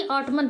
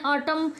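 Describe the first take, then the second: First: ऑटमन with an N sounded at the end; wrong pronunciation. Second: ऑटम ending on M; silent N. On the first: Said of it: "ना कि ऑटमन". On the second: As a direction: drop the final N in ऑटम. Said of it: "ऑटम पढ़ते हैं". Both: Shown as a demonstration.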